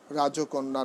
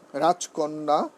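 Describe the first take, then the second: First: রাজকন্যা as rajo-konna, extra o after j; wrong pronunciation. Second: রাজকন্যা as raj-konna, no linking o; correct pronunciation. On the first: Teacher showing students what to avoid, wrong pronunciation. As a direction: say রাজকন্যা with an added middle o. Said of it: "নয়". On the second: Teacher giving an exception to the rule, correct pronunciation. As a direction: say রাজকন্যা with j straight into k. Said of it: "রাজকন্যা নয়". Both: Shown as a demonstration.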